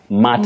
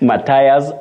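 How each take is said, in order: First: The word sounds like 'matters', with two syllables. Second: The word sounds like 'Matthias', with three syllables. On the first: The speaker calls it right. "this word, you say, matters" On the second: The speaker calls it wrong. "just avoid that"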